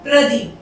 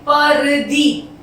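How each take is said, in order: First: The p and r sounds are joined together. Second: A vowel separates the p and r sounds. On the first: The speaker calls it right. "पै में रे को जोड़ के बोला जाता है" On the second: The speaker calls it wrong. "इसे हम पढ़ेंगे परदीप"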